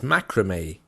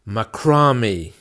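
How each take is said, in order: First: It is said with an American pronunciation. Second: It is said with a British pronunciation. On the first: "in American English it's" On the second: "in English"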